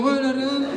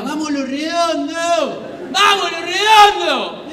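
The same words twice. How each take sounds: First: Uneasy mock cheer; half-hearted cheer. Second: High, drawn-out mock fan chant; hammed-up, loud rallying shout; fans yelling in your face. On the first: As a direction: feebly echo the rowdy fans' chant. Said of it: "Y yo hacía como". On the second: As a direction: bellow it slowly like rowdy fans. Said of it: "a gritar en la cara".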